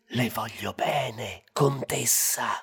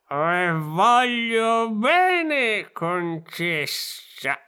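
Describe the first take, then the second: First: It is whispered. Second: It is said in a drunk voice.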